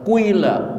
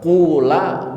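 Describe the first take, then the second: First: The first vowel glides from u into i. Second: The first vowel is a plain u. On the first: "mau dibaca kuila boleh" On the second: "mau dibaca kula boleh"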